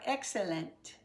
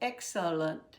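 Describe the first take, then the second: First: The unstressed vowel keeps its full sound. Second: The unstressed vowel is reduced to uh. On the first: This is how the spelling looks. "It looks like excellent" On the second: This is how people actually say it. "but we're going to say excellent"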